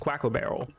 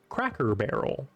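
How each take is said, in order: First: The R sounds are pronounced like W sounds. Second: The R sounds are pronounced as clear R sounds.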